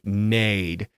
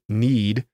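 First: The vowel is an open 'ay' sound. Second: The vowel is a close 'ee' sound. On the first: "He chooses to pronounce it more like nade" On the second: "the E sound like you would when you normally pronounce the word need"

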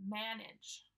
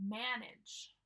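Both takes have the same delivery.

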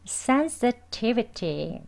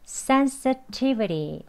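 First: The t in the middle is a crisp t. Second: The t is a very light tap, like 'ri'. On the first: "sensitivity라고 발음합니다. 두번 해볼게요" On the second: "이제 마지막으로 더힘 빼셔서 부드럽게 리, 리라고 발음합니다"

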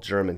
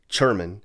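First: It is said with a plain American accent. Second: It is said with a German-style accent.

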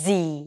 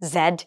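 First: The letter ends in a long 'ee' sound, like zee. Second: The letter ends with a 'd' sound, like zed. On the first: The speaker calls it right. "According to the native speakers, it's জি" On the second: The speaker calls it wrong. "আমরা কতজন এটাকে জেড জেড জেড এসব বলে থাকি"

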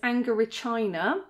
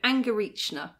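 First: The middle does not sound like 'reaching'. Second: The middle sounds like the word 'reaching'. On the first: "it actually says Angorichina" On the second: "as though you're reaching for something"

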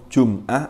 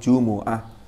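First: The m has no vowel after it. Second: The m is followed by a u vowel. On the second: "pakai mimnya di harokati berharokat dhamma"

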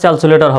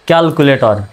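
First: The word begins with an s sound. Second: The word begins with a k sound. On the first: The speaker calls it wrong. "উচ্চারণটা স্যালসুলেটর হবে না" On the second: The speaker calls it right. "সঠিক উচ্চারণটা"

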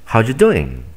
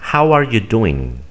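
First: The words run together in a reduced form. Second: Every word is pronounced fully and separately. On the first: "Simplemente ellos dicen" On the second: "Así es como nos aprendemos a pronunciar esta palabra"

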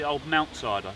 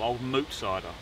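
First: The name has an n sound, like mount. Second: The name has no n sound, like moot. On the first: The speaker calls it wrong. "I think people call it mount, but it's not" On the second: The speaker calls it right. "No, old moot cider"

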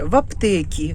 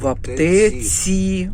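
First: The last word ends with a k sound. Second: The last word ends with a ts sound. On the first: The speaker calls it wrong. "Не в аптекі вона купила" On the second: The speaker calls it right. "а в аптеці"

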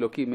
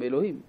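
First: The middle consonant is pronounced as k. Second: The middle consonant is pronounced as h. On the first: The speaker calls it wrong. "לא אומרים אלוקים" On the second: The speaker calls it right. "אלא אומרים אלוהים"

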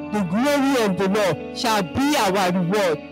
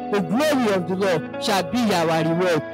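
No difference in how they are said.

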